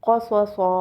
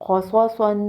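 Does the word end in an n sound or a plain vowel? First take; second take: vowel; n sound. First: The word ends on a plain long vowel. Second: The word ends with an n sound. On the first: The reader stops on this word. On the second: The reading continues without stopping.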